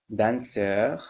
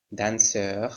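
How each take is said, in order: Both takes have the same delivery.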